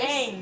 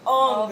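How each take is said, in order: First: The vowel is a front 'a' sound, like 'hang'. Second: The vowel is an open 'ah' sound, like 'long'. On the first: This is how the show said the name. The speaker calls it right. "It's two A's" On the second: This is how the film said the name. The speaker calls it wrong. "The instant I heard that Ong, I was like, no"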